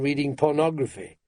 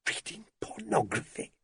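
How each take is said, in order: First: Said in the usual way. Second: High, hushed disbelief; incredulous wife's higher, softer voice. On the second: A narrator's reading. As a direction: echo it back softly, appalled. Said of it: "Hilda sounded incredulous".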